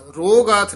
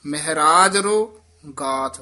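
First: ਰੋ ਗਾਥ run as one word ਰੋਗਾਥ, the wrong way; the mistaken joined ਰੋਗਾਥ; wrong reading. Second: ਰੋ stretched and joined to ਮਹਾਰਾਜ, louder; drawn out linkage. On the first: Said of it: "ਰੋ ਗਾਥ ਨਹੀਂ ਕਹਿਣਾ ਹੈ". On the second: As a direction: lengthen ਰੋ slightly, tying it to ਮਹਾਰਾਜ. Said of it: "ਥੋੜ੍ਹਾ ਜਿਹਾ ਲਮਕਾ ਕੇ ਬੋਲਣਾ ਹੈ". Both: Shown as a demonstration.

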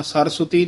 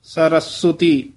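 First: ਸਰਸਵਤੀ said quickly in one run, with no break after ਸ; wrong run-together. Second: ਸਰਸਵਤੀ with a tight break after ਸ, slower; ਸ-ਰਸਵਤੀ, ਸ ਨੂੰ ਕੱਸ ਕੇ ਬੋਲੋ. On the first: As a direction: rush ਸਰਸਵਤੀ as one smooth word. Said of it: "ਸਰਸਵਤੀ ਨਹੀਂ ਕਹਿਣਾ". (ਸਰਸਵਤੀ ਗ਼ਲਤ, ਇਕੱਠਾ ਤੇਜ਼) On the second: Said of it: "ਸ ਤੋਂ ਡੈਸ਼ ਦੇ ਕੇ ਥੋੜ੍ਹਾ ਜਿਹਾ ਕੱਸ ਕੇ ਬੋਲਣਾ". (ਸ ਤੋਂ ਡੈਸ਼, ਕੱਸ ਕੇ) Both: Shown as a demonstration.

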